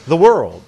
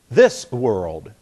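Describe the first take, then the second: First: "the world" run together quickly and louder. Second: "This world" as two separate words; unhurried. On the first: Preacher shows a vowel lets you go quickly, words run together. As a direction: hurry straight from "the" into "world". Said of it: "makes it so that you go quickly". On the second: Preacher shows the tongue can't hurry, words slower and parted. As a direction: finish the s before starting "world". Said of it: "your tongue can't do that very quickly". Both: Shown as a demonstration.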